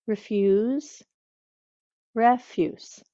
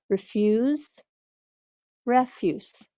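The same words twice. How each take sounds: The two takes are said the same way.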